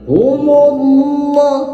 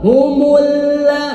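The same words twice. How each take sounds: First: The vowel after the h is short. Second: The vowel after the h is drawn long. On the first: The speaker calls it right. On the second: The speaker calls it wrong.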